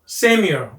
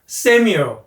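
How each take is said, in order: Both takes have the same delivery.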